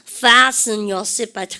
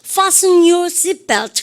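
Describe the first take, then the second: First: An American accent with a flatter front vowel. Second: A British accent with a broad 'ah' vowel. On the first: "미국 쪽 비행기를 타면 ... 그래요" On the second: "영국의 항공을 타면 이렇게 합니다. ... 아 발음 많이 하고요"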